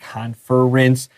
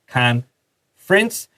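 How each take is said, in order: First: The middle er syllable is fully pronounced. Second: The middle er syllable is dropped. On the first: The speaker calls it wrong. "We don't really say conference" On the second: The speaker calls it right. "underline it and draw a little X. ... It's conference"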